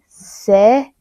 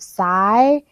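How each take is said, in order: First: The vowel is short, as in sit. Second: The vowel is long, as in sigh. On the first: The speaker calls it right. "the Y sounds like an I, si" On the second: The speaker calls it wrong. "instead of sigh"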